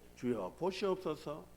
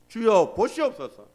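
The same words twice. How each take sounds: First: It is said in a humble, grateful way. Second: It is said in a proud, boastful way. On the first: I am thankful I could offer even this. The speaker calls it right. "하나님 이거라도 바칠 수 있어서 감사합니다" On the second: Look how much I have given you. The speaker calls it wrong. "이 정도 되면 하나님 괜찮지 않습니까?"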